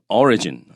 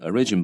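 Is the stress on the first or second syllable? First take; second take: first; second. First: The stress is on the first syllable. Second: The stress is on the second syllable. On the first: The speaker calls it right. "它重音变名词的时候改变了哈" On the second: The speaker calls it wrong. "那就念 origin 吧，其实不对哈"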